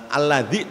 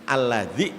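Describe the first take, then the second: The two takes are said the same way.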